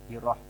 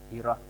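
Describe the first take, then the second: The two takes are said the same way.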